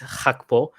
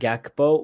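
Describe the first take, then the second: First: The name begins with a breathy H-like sound. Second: The name begins with a hard G sound. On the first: This is how it is said in the Netherlands. "in uh the Netherlands, the way to pronounce that is is Hakpo" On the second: This is how English speakers say it. "native English speakers are always going to pronounce that Gakpo"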